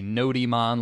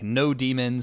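First: It is said to rhyme with Pokemon. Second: It sounds like the two words no demon. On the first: "like Pokemon" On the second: "Some people pronounce this differently"

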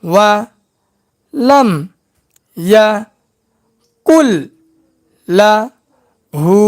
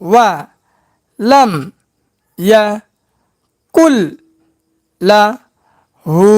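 No difference in how they are said.

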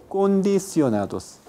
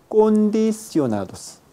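The two takes are said the same way.

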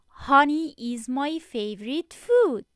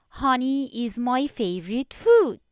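Both takes have the same delivery.

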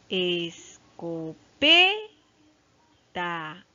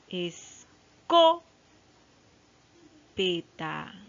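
First: The stress is on the third syllable, pe. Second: The stress is on the second syllable, co. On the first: The speaker calls it right. "ahí se encuentra la sílaba tónica en P" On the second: The speaker calls it wrong. "No, tampoco está ahí"

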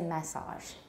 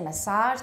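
First: The stress falls on the first syllable. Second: The stress falls on the second syllable. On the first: This is the British pronunciation. "they say massage" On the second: This is the American pronunciation. "They don't say massage"

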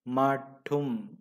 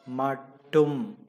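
The two takes are said the same way.

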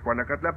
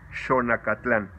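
First: The name is said in its Spanish form. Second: The name is said in its Nahuatl form. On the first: "El lugar de las cebollas es Juanacatlán" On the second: "lo correcto en náhuatl es Xonacatlán"

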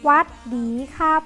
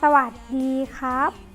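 First: The greeting is clipped short in a southern accent. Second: The greeting is said in full, in standard accent. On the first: "คนใต้จะเป็นยังไงคะ ชอบพูดตัดคำชอบพูดเร็วใช่ไหม" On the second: "คือ"

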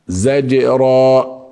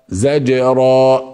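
No difference in how they are said.

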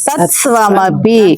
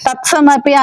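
First: Both s and v are sounded, giving tsv. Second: The v sound is dropped, giving ts. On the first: The speaker calls it right. "తత్స్వ ఇలా మన పళ్ళల్లో నుంచి రావాలి" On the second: The speaker calls it wrong. "తత్సమపి అన్నాం అనుకోండి వావత్తు పోతుంది"

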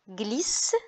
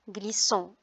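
First: The final ending is silent. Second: The final ending is sounded as a nasal vowel. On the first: The speaker calls it right. "On dit" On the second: The speaker calls it wrong. "On ne dit pas"

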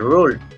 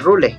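First: The word is read with English sounds. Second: The word is read with Spanish letter sounds. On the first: The speaker calls it right. "se dice rule" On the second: The speaker calls it wrong. "no se dice rule"

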